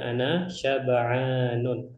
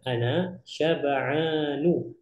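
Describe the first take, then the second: First: The last word ends with an added n sound. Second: The last word ends on a plain vowel. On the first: The speaker calls it wrong. "bukan ana syab'anun" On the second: The speaker calls it right. "cara bacanya ana syab'anu"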